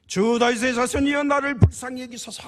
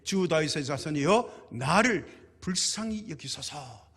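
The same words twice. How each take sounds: First: High, very loud desperate plea; full-throated shouting. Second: Slow, drawn-out reading of a plea; measured scripture plea. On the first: Acted. Blind beggar calls after passing Jesus, shouting desperately. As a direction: cry out at the top of your voice. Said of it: "고래고래 소리를 질렀죠". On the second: Retold or imitated. Preacher quotes the poor woman's plea to Jesus, measured and slow. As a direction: read the cry out slowly, without shouting. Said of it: "소리 질러 이르되".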